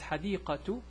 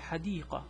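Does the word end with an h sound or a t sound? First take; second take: t sound; h sound. First: The word ends in a t sound. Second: The word ends in a soft h sound. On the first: The speaker continues to the next word. "If I continue, is" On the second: The speaker stops after this word. "if I read this sentence and stop here, I'll say"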